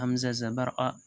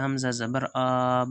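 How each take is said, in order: First: The final vowel is short and quick. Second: The final vowel is drawn out long. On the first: The speaker calls it right. "जल्दी पढ़ें, थोड़ा भी न खींचे" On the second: The speaker calls it wrong. "ऐसे नहीं पढ़ना है दोस्तों"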